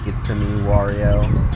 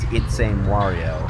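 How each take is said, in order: First: A separate 'a' syllable comes before 'me'. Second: There is no separate syllable before 'me'. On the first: The speaker calls it right. "the intro to my channel is" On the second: The speaker calls it wrong. "so many people mispronounce my name as"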